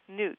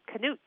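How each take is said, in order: First: The name starts with an N sound. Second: The name starts with a K sound. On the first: This is how the owner of the name says it. The speaker calls it right. "that's not how you say it, huh?" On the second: This is how people in Minnesota would say it. The speaker calls it wrong. "where we'd be saying that K and it'd be Knut"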